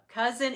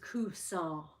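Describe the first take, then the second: First: The final N sound is clearly pronounced. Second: The final N sound is not really pronounced. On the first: The speaker calls it wrong. "Instead of um" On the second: The speaker calls it right. "you don't really say the N sound"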